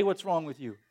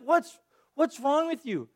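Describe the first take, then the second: First: Lower, softer, offhand "What's wrong with you?"; dismissive. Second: Slow, incredulous "What's, what's wrong with you?"; exasperated disbelief. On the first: Pastor describing easy judgement of the Israelites, offhand dismissal. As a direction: toss off "What's" casually. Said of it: "it's easy to just say". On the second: Pastor voicing his reaction to the Israelites, incredulous. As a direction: drag out "What's" in mock disbelief. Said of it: "that's always been part of my reaction". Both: Retold or imitated.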